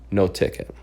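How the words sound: It is said in an angry tone.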